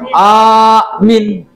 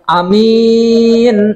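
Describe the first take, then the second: First: The first vowel is long, the second short. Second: The first vowel is short, the second long. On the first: A person who believes. "A-nya panjang, tapi min-nya pendek" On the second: Honest and trustworthy. "yang A-nya pe pendek"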